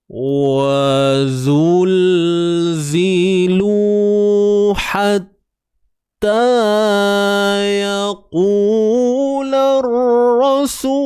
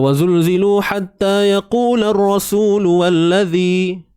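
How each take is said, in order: First: It is recited at a very slow tempo. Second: It is recited at a fast tempo.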